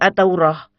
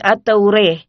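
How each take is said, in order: First: The vowel before the final h is open a. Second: The vowel before the final h leans toward e. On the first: "Yang membaca dengan fat akan berbunyi At-Taurah" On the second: "kalau dibaca dengan imala akan berbunyi At-Taureh"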